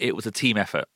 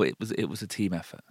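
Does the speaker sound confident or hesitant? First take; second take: confident; hesitant. First: It is said in a confident, positive tone. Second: It is said in a hesitant, self-deprecating tone. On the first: The speaker accepts the praise without putting themselves down. The speaker calls it right. "do it in a positive way, a way that doesn't reduce you" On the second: The speaker plays down the praise and reduces themselves. The speaker calls it wrong. "It's different to, oh, no, thank you, but, oh"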